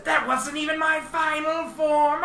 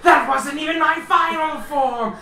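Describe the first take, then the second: First: High, hammed-up villain bellow; villain boast. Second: High, loud, hammed-up villain bellow; villain boast. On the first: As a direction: shout it like a cartoon villain powering up. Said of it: "he says". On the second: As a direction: roar it out like a cartoon villain powering up. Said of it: "you hear the voice say". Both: GM voicing the alien boss bragging as he transforms.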